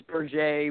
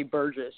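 First: Berger said the French way, ending in "ay"; French pronunciation. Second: Said in the usual way. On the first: Shown as a demonstration. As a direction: give Berger a French ending, like "ber-ZHAY". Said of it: "but it's Berger". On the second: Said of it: "but we say Burgess".

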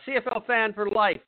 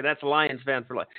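First: Said in the usual way. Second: Self-correcting with emphasis on "Lions". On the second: Shown as a demonstration. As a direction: stress on "Lions", said lower and firmer. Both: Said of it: "Oh, no, sorry".

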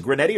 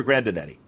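First: "Granetti" in three syllables, gruh-NET-ee; "Granetti" as the shorter pronunciation, stressed on NET; short name variant. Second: "Grandinetti" in four syllables, gran-dih-NET-ee; "Grandinetti" as the fuller pronunciation, stressed on NET; long name variant. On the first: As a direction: say "Granetti" without the "din" in the middle. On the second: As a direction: say "Grandinetti" with the "din" sounded. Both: Shown as a demonstration. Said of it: "is it Granetti or Grandinetti".

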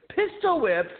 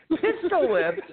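First: Incredulous. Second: High rising disbelief, voice thinned; incredulous question. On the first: Teen scoffing at the cop's claim, high incredulous echo. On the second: Teen mocking the cop's warning, high rising disbelief. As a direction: ask it back as if it's absurd. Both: Retold or imitated.

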